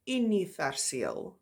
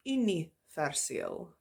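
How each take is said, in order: First: "universeel." said slowly, Afrikaans u and rolled ending; Afrikaans word. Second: "universeel." repeated slowly, Afrikaans u; repeated Afrikaans word. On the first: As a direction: spell out "universeel." by sound. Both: Shown as a demonstration. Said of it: "the pronunciation when it's used in the beginning".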